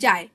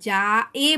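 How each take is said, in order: First: The final e is a short half-vowel glide. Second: The final e is a full separate syllable. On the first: The speaker calls it right. "বলছি যায়, তাহলে অর্ধেকটা কেটে যাচ্ছে" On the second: The speaker calls it wrong. "যা এ বলছি না"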